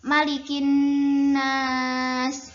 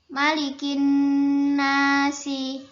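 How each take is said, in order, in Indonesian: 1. Kata terakhir berakhir dengan konsonan. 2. Kata terakhir berakhir dengan vokal. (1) "ketika diiskankan itu malikin nas" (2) "itu kan e, tulisan di Al-Qur'annya"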